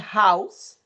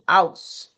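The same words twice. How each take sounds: First: The word begins with an audible h sound. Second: The word begins with no h sound. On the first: "instead of saying house" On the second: "es muda"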